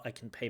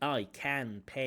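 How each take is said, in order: First: The vowel in 'can' is a reduced schwa. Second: The vowel in 'can' is a full vowel. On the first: The speaker calls it right. "she's hitting that schwa" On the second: The speaker calls it wrong. "not the"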